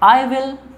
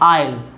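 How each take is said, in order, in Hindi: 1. दोनों शब्द अलग-अलग, पूरे बोले जाते हैं। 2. दोनों शब्द मिलकर एक तेज़ अक्षर में बोले जाते हैं।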